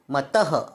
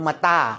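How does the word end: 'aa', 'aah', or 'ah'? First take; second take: ah; aa. First: It ends in a short vowel with breathy release. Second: It ends in a long vowel without breathy release. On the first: "मतः असं करायचं नाही" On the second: "मता असं नाही करायचं"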